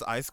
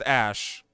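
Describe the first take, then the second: First: The name is said like 'Isk'. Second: The name is said like 'Ash'. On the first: The speaker calls it wrong. "Because I've been pronouncing it that way" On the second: The speaker calls it right. "it's literally pronounced Ash"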